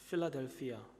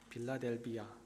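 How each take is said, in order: First: The name begins with a sharper P sound. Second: The name begins with a softer B sound. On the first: The speaker calls it right. "필라델피아가 나은 것 같아요" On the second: The speaker calls it wrong. "빌라델비아 발음이 좀 그래요"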